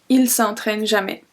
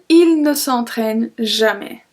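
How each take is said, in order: First: The 'ne' is dropped from the sentence. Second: The full form with 'ne' is pronounced.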